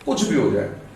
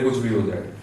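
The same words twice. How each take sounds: First: It is said forcefully, in an aggressive tone. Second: It is said mildly, without force. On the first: The speaker calls it right. "इसको aggressive mood में बोलते हैं" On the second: The speaker calls it wrong. "ये हम ऐसे नहीं करते"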